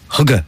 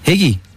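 First: It is said like 'hugga', with a u vowel. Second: It is said like 'higgy', with an i vowel.

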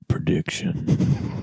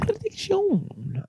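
First: It is said in a dark, dramatic movie voice. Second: It is said in his normal voice.

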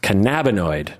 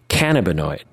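First: The start does not sound like 'cannabis'. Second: The start sounds like the word 'cannabis'. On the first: The speaker calls it right. "apparently it's pronounced cannabinoid" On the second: The speaker calls it wrong. "I thought it would be cannabinoid. ... you have cannabis and then you would have cannabinoid"

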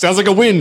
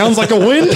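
First: It falls at the end, punchy and firm. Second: It rises at the end like a question.

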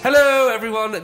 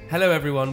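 First: It is said very loudly, almost shouted. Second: It is said at a normal speaking volume.

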